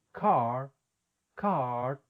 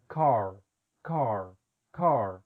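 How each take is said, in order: First: "Car" Boston style, R dropped, long open ah; Boston accent. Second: "car" with a full American R at the end; R pronounced. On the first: Teacher showing how Boston speakers say the word. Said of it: "personas de la ciudad de Boston". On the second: Teacher contrasting Boston with other American regions. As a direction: sound the R clearly in "car". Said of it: "otras personas en otras regiones". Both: Shown as a demonstration.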